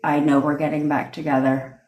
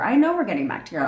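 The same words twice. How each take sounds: First: The voice is flat and monotone throughout. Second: The voice is lively with natural varied pitch. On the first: The words sound unconvinced and less real. The speaker calls it wrong. "you're not sitting there monotone" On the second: The speaker truly believes it. The speaker calls it right. "Saying it in a natural tone to you"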